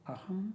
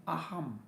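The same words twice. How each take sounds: First: "Aham" clipped short with a rising tune. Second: "Aham" firm, falling at the end; stress on Aham. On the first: Teacher demonstrating the short "Aham", quick and rising. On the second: Teacher stressing "Aham" for students, firm falling. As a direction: lean on "Aham", let it drop. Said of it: "we give importance to the syllable I am". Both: Shown as a demonstration.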